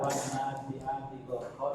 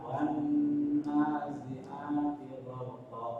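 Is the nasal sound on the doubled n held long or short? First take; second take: short; long. First: The doubled n is said short, without nasal hum. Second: The doubled n is held long with nasal hum. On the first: The speaker calls it wrong. "tidak dibaca" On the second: The speaker calls it right. "wan na ditahan"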